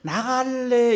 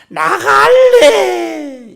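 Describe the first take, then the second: First: It is said flatly, without feeling. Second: It is said with strong, stressed emotion. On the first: The speaker calls it wrong. "이래 하는 게 아니고" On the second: The speaker calls it right. "악센트를 잡고 있는 겁니다. 감정을 잡고 있는 겁니다"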